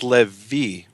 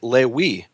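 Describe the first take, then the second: First: The middle consonant is a V sound. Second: The middle consonant is a W sound. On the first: "they'll all say it's Levi with a V"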